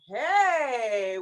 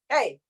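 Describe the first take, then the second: First: It is said with eager enthusiasm. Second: It is said as a sharp scolding. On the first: The speaker really likes something. "with real enthusiasm" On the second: The speaker is telling someone off. "Or you're giving heck to some kid"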